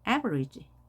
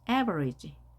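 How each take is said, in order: No difference in how they are said.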